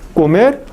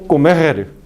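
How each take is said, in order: First: The final r is a single quick tap. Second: The final r is a rolled multiple trill. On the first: "vibrante simple" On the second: "vibrante múltiple"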